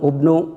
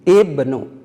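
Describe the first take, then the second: First: The word begins with a u vowel. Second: The word begins with an i vowel. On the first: The speaker calls it wrong. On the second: The speaker calls it right. "Kenapa diberi harkat kasroh?"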